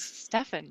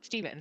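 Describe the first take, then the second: First: "Stefan" said STEFF-un, with a short e and an f; proper pronunciation. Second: "Steven" said STEE-vun, with a long e and a v; mistaken pronunciation. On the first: Moderator showing how her friend's name goes, proper pronunciation of "Stefan" as STEFF-un. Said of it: "proper pronunciation is Stefan". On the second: Moderator showing how not to say the name, "Steven" as STEE-vun. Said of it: "not Steven". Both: Shown as a demonstration.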